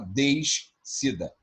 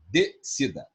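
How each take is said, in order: First: An s sound is heard before the c. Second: No s sound is heard before the c. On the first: The speaker calls it wrong. "a gente não fala descida" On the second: The speaker calls it right. "é decida"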